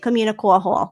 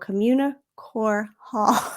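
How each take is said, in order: First: The name is said quickly and run together. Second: The name is said slowly and carefully. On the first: The speaker calls it wrong. "I have to force myself to not say" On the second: The speaker calls it right. "I can't say this quickly. You have to go"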